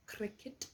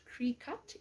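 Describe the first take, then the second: First: "Cricut" said krick-it, short i, like cricket; "Cricut" said properly as krick-it; correct pronunciation. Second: "Cricut" said kree-cut, long ee then cut; "Cricut" wrongly said as kree-cut, slowly; wrong pronunciation. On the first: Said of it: "not Cricut". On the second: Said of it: "It is not a Cricut". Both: Shown as a demonstration.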